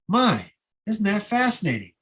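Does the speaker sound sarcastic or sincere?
sincere. It sounds sincere and good-humored. Making the best of a bad situation. The speaker calls it right. "we say this"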